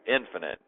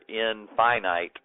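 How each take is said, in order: First: The word is said with the everyday pronunciation. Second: The word is said with the specialist pronunciation. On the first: This is how most people say the word. "most of us normal humans would pronounce it in, infinite" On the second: This is how specialists say the word. "most mathematicians or scientists that you see will call this their infinite numbers"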